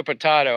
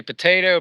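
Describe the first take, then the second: First: Potato as "puh-TAH-toe"; potato with "tah" in the middle; broad A potato. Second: Potato as "puh-TAY-toe"; potato with "tay" in the middle; long A potato. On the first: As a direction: say potato with the open vowel of "father". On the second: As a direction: say potato with the vowel of "day". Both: Shown as a demonstration. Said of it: "You say potato or potato".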